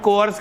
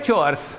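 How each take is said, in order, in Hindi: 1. शब्द 'k' ध्वनि से शुरू होता है। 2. शब्द 'ch' ध्वनि से शुरू होता है। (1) "डोमेस्टिक या होम कोर्स कह देते हैं इसको" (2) "ये वर्ड है चोर्स"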